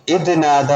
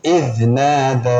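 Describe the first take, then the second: First: Quicker "ഇദ് നാദ", not drawn out; wrong recitation. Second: Slow "ഇദ് നാദ" with drawn-out നാ; correct recitation. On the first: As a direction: say "ഇദ് നാദ" briskly, at talking pace. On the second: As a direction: recite "ഇദ് നാദ" slowly, stretching the long vowel. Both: Shown as a demonstration. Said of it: "എന്നല്ല".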